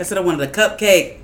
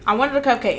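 First: Exasperated shout. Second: Said in the usual way. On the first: Real, not acted. Echoing friend's complaint, exasperated.

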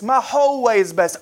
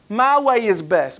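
First: My whole way is best, with whole leaned on; stress on whole. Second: My way is best, with my leaned on; stress on my. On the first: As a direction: hit the word whole. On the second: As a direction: press the word my. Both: Shown as a demonstration.

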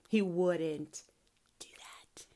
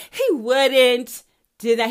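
First: Whispered, close to crying; tearful whisper. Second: Louder, slow, each word pressed; loud insistence. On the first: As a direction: breathe it out, nearly in tears. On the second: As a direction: declare it firmly and slowly. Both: Real, not acted. Insisting God makes no mistakes.

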